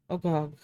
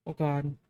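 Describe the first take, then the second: No difference in how they are said.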